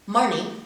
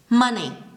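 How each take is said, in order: First: An extra r sound is added after the vowel. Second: No r sound is added after the vowel. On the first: The speaker calls it wrong. "read the following words like this" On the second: The speaker calls it right. "don't add the raw sound when there's no R in the word"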